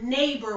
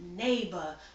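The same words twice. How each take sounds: First: It ends with a clear r sound. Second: It ends in "bah" with no r. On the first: The speaker calls it wrong. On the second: The speaker calls it right. "It's neighbor, which is spelled N A Y B A H"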